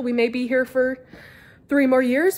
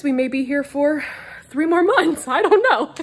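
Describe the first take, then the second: First: Said in the usual way. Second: Louder, higher, breaking into laughter; laughing. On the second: Real, not acted. Telling viewers they might move soon, laughing out loud. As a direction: laugh through the punchline. Repeated with changed ending.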